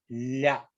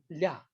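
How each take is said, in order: First: The tongue stays in contact longer before releasing. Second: The tongue taps briefly and releases at once. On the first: "혀를 좀 오래 댔다가 떨어지는 거고" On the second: "닫다 바로 떨어지면서 랴"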